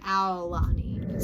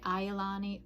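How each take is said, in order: First: The first syllable sounds like 'owl'. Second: The first syllable does not sound like 'owl'. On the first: "it's like owl, like an Aulani" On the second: "I used to keep saying Aulani"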